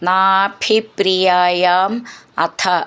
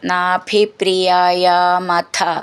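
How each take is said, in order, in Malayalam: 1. ഈ രണ്ട് വാക്കുകളും വേറെ വേറെ വാക്കുകളായിട്ടാണ് ചൊല്ലുന്നത്. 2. ഈ രണ്ട് വാക്കുകളും ചേർത്ത് ഒരു വാക്കായിട്ടാണ് ചൊല്ലുന്നത്.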